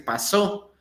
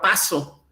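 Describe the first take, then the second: First: The stress is on the last syllable. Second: The stress is on the first syllable. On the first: It is the verb in the past tense. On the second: It is the noun, not a past-tense verb.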